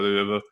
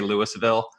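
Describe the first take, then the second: First: The name is mumbled, with slack, reduced syllables. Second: The name is said fully, with every syllable clear. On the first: A local is saying the name. The speaker calls it right. "pretend like you just Novocaine'd up most of your mouth" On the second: An outsider is saying the name. The speaker calls it wrong. "when people in a movie set in Kentucky or about my state say"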